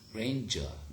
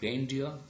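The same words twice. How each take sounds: First: The middle is a single j sound. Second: The middle is a d followed by y. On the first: This is the modern pronunciation. "right now we pronounce it as grandeur. J" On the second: This is the older pronunciation. "that was grandeur"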